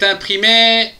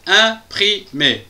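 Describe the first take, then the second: First: Said in the usual way. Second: "Imprimé" in three slow, separated beats; "Imprimé" broken into distinct syllables. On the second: Shown as a demonstration. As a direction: say "Imprimé" with a gap after each syllable. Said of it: "trois syllabes".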